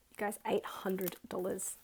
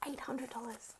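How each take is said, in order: First: Said in the usual way. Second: Whispered in disbelief; awed whisper. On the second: Real, not acted. Vlogger repeating her savings total, whispering in awe. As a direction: breathe the number in awe.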